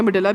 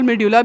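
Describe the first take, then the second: First: Medulla said as "mi-DUH-la"; alternative pronunciation. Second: Medulla said as "me-DYU-la"; alternative pronunciation. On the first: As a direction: say medulla with a short "uh" in the middle, no "yoo". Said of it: "आप जो भी बोलना चाहते हैं". (medulla का उच्चारण "मिडला") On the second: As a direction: say medulla with a "yoo" in the middle, me-dyu-la. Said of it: "भी बोलते हैं, आपकी मर्ज़ी". (medulla का उच्चारण "मेड्यूला") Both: Shown as a demonstration.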